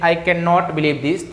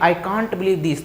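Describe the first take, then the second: First: Cannot is said in full as two words. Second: Cannot is shortened into the single word can't. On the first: It sounds less fluent. The speaker calls it wrong. "अगर आप ऐसे बोलेंगे कि" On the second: It sounds more fluent. The speaker calls it right. "एक तरह से fluency आती है"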